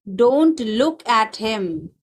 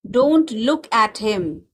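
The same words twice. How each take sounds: First: Slow, careful classroom repeat. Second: Said in the usual way. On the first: Shown as a demonstration. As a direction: spell it out slowly for the class. Teacher repeats slowly for learners. (धीरे-धीरे दोहराते हुए)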